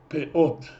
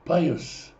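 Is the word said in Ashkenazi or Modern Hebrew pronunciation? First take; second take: Modern Hebrew; Ashkenazi. First: It sounds like pe-ot, ending in a t sound. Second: It sounds like pa-yos, ending in an s sound. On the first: "Во множественном числе «пеот» – края" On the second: "когда мы говорим на ашкеназских диалектах ... мы скажем «пайос»"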